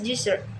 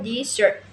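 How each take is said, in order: First: The stress is on the first syllable. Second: The stress is on the second syllable. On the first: It names a dry region. "the first syllable is stressed" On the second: It means to abandon. "the stress shift the to the second syllable"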